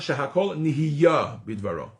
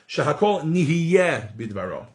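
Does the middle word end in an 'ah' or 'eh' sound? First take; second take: ah; eh. First: The middle word ends with an 'ah' vowel. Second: The middle word ends with an 'eh' vowel.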